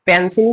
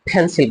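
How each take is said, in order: First: The first p is plain, without a puff of air. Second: The first p has a strong puff of air. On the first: The speaker calls it wrong. "না বলে" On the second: The speaker calls it right. "বলবো"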